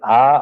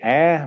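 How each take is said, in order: First: It is said in a mid-range baritone voice. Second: It is said high, imitating an eight-year-old American girl.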